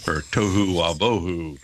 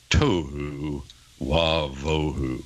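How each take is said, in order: First: Said in the usual way. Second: Tohu wavohu drawn out slowly and low, syllable by syllable; slow Hebrew reading. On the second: Shown as a demonstration. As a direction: read tohu wavohu as a slow, solemn recitation. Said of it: "the Hebrew text says".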